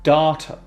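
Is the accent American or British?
American. It is said with an American accent.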